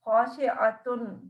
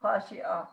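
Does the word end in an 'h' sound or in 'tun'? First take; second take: tun; h sound. First: The word ends with a full 'tun' sound. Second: The word ends softly with an 'h' sound. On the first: This is the full form of the word. "असल में ये है खाशिआतुन" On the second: The reading pauses at this word. "खाशिआ मैंने वक्त किया है तो हा की आवाज़ से प्रोनाउंस किया है"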